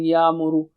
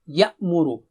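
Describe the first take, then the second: First: The glottal stop in the middle is suppressed. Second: A clear glottal stop is heard mid-word. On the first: The speaker calls it wrong. "mistakes like saying Ya'muru ... they suppress that" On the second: The speaker calls it right. "So you have to be very clear"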